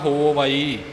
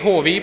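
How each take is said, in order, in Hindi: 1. यह दो अलग-अलग हिस्सों में बोला जाता है। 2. यह एक ही शब्द की तरह जुड़कर बोला जाता है।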